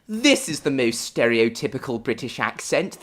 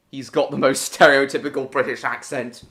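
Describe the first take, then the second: First: Exaggerated upper-class British accent, every word polished; overly posh British. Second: Said in the usual way. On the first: Shown as a demonstration. Streamer showing chat his overly posh British accent. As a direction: ham up a posh English toff. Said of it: "my overly posh one".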